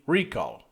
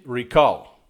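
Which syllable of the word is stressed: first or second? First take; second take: first; second. First: The stress is on the first syllable. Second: The stress is on the second syllable. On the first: "but he's saying recall" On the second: "stress the second syllable"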